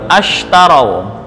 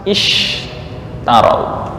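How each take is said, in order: First: The word begins with an 'a' vowel. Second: The word begins with an 'i' vowel. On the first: This is one reading tradition's form when restarting after a stop. "Tapi ketika mengulang sini baru ashtarau" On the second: This is the other reading tradition's form. "Harusnya kalau dihafaz kan ishtarau"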